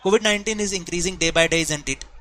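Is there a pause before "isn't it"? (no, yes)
no. It runs straight on with no pause. The speaker calls it wrong. "अगर मैं without comma बोलूं"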